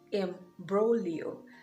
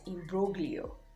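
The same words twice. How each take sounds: First: The G sound is not pronounced. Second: The G sound is pronounced. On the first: The speaker calls it right. "the letter G is silent" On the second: The speaker calls it wrong. "I used to pronounce this as"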